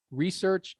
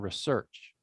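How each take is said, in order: First: "research" as REE-search, first syllable stressed. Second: "research" as ruh-SEARCH, weak first syllable; stress on second syllable. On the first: Teacher contrasting two versions for class, "research" stressed up front. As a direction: slowly hit the REE in "research". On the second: Teacher contrasting two versions for class, "research" stressed at the end. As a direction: slowly punch SEARCH in "research". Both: Shown as a demonstration. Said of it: "What about research and research?".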